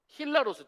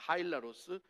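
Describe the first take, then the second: First: The first syllable sounds like 'hee'. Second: The first syllable sounds like 'hai'. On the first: The speaker calls it right. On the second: The speaker calls it wrong.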